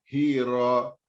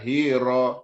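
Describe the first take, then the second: First: The r is short and single. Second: The r is short and single.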